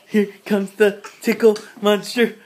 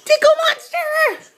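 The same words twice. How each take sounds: First: Said in the usual way. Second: High, slow playful monster; tickle monster voice. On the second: Pretend. Mother playing with her baby.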